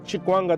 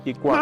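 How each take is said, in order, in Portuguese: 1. A palavra começa com um som de ch. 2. A palavra começa com um som de k forte. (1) "se quiseres falar Chikwanga também passa" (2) "Kikwanga, pronuncia bem"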